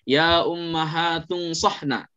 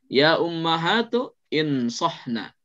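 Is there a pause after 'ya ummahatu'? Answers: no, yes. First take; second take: no; yes. First: The words run together with no pause. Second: A pause comes before the verb, starting with i. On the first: "kalau misalnya mau langsung" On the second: "kalau mau jeda, nanti dibaca alifnya"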